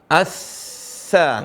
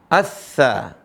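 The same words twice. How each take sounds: First: The doubled consonant is held long. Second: The doubled consonant is held short. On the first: The speaker calls it wrong. "enggak boleh" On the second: The speaker calls it right.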